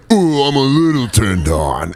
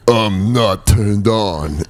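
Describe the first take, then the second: First: Higher, drawn-out mock arousal; Rambo. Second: Very slow mock-stoic denial; Rambo. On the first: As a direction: ooh it slowly, hammed-up and excited. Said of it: "like a violence orgasm". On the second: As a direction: deny it slowly in a hammy hero voice. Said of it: "where he's like".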